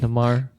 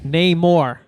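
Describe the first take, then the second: First: The first syllable is not said like 'nay'. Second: The first syllable is said like 'nay'. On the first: The speaker calls it wrong. "I said it wrong" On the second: The speaker calls it right. "remember Nay more"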